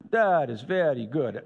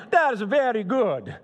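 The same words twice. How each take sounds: First: Said in the usual way. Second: Put-on a light, playful Italian accent, higher and louder. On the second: Preacher imagining God praising creation in a playful Italian accent. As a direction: voice God as a proud Italian admiring his work. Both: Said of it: "Probably talks like this".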